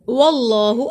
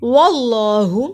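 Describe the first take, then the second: First: वल्लाहु with the ल thick and heavy; heavy Allah. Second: वल्लाहु with a full heavy ल, slow; heavy Allah. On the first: Teacher repeating the heavy name for students. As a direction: make the ल in वल्लाहु full. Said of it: "अल्लाह के नाम को मोटा पढ़ेंगे". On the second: Teacher showing the heavy name to students. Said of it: "अल्लाह का नाम मोटा पढ़ा जाएगा". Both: Shown as a demonstration.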